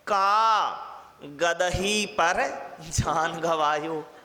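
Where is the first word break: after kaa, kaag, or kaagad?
after kaa. The break comes after kaa, before gadahi.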